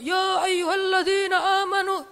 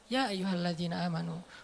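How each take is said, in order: First: It is said loudly, like shouting. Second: It is said calmly and relaxed.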